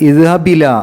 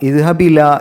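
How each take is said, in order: First: The glottal stop is lost and words merge. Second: The glottal stop is lost and words merge.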